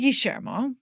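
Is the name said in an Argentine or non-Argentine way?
Argentine. The name is said with an Argentine accent. This is how it is said in Argentina. "I say Guillermo"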